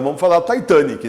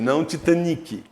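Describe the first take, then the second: First: The word begins with the sound of 'Titã'. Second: The word does not begin like 'Titã'. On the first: The speaker calls it right. "Justamente porque vem de Titanic" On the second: The speaker calls it wrong. "A Globo começou a falar errado"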